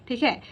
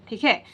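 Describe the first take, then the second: The two takes are said the same way.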